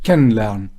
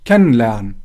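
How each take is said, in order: Both takes have the same delivery.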